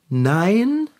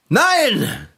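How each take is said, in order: First: It is said hesitantly, without conviction. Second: It is said with exaggerated, overdone force.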